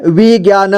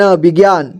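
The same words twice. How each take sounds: First: विज्ञान as वि-ज्ञा-न; syllable by syllable. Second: Said in the usual way. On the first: Shown as a demonstration. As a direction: sound out विज्ञान ending "na". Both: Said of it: "एक ही बार में पढ़ेंगे".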